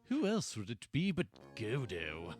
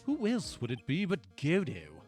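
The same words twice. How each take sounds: First: It is said with spiteful malice toward Godo. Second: It is said in a plain, neutral tone.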